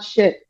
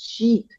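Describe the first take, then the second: First: The word has a short vowel sound. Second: The word has a long vowel sound. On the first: The speaker calls it wrong. "no, it's not shit" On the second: The speaker calls it right. "it's sheet, a sheet of paper"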